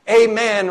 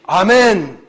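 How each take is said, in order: First: Amen is pronounced the English way. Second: Amen is pronounced the Spanish way.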